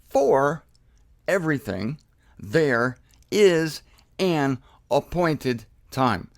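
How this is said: Every one of the seven words is stressed.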